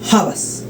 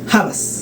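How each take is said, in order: First: The word starts with a raspy throat sound. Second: The word starts with a raspy throat sound.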